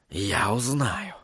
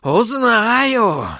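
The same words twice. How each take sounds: First: Low, soft and slow vow; whispering. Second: High, drawn-out cry; vehement outburst. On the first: Sorcerer vowing to find the helper, whispering. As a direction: murmur it slowly to yourself, very soft. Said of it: "прошептал он". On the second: Sorcerer vowing to find out, crying out. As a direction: let the vow burst out high. Same vow repeated as outburst. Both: A narrator's reading.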